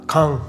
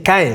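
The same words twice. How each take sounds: First: The name is said with French-style sounds. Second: The name is said with Spanish-style sounds. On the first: "la pronunciación en francés es muy distinta, es algo parecido a Caen" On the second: "yo voy a decir Caen en este vídeo"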